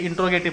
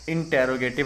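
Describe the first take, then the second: First: The 't' and 'r' run together without a vowel. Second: A clear vowel separates the 't' and the 'r'. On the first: The speaker calls it wrong. "इंट्रोगेटिव नहीं बोलेंगे" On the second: The speaker calls it right. "हम क्या बोलेंगे? इंटेरोगेटिव"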